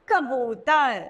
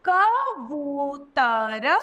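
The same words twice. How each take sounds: First: Said in the usual way. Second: कबूतर broken into slow syllables, rising at the end. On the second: Shown as a demonstration. Teacher sounding out कबूतर for pupils, very slow. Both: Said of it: "तो कैसे कहेंगे?".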